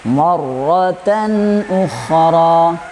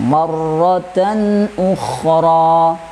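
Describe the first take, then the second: Both takes have the same delivery.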